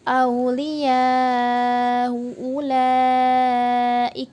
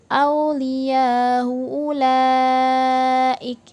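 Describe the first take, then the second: First: The long vowel is held medium length. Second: The long vowel is held short. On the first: "kita baca tawassut" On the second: "itu dibaca qasar"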